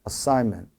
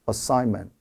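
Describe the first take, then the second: Both takes have the same delivery.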